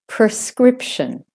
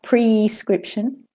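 First: The stress is on the second syllable. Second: The stress is on the first syllable. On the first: The speaker calls it right. "the second syllable is the stressed one" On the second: The speaker calls it wrong. "not prescription"

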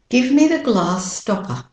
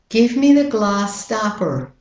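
First: It is said in a non-American accent. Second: It is said in an American accent.

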